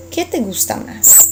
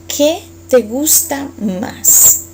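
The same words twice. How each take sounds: First: Said in the usual way. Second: Very slow, each word apart, x0.5; slow model question. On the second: Shown as a demonstration. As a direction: spell it out slowly for learners.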